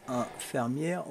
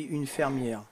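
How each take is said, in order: First: "infirmière" said as one word, opening on a nasal "in"; rejected word. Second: "une fermière" with a clear "une" in place of nasal "in"; softly, slowly correct it to "une fermière"; mock correction. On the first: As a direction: give "infirmière" as the wrong form, softly. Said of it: "on dit pas". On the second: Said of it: "on dit une fermière". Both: Shown as a demonstration.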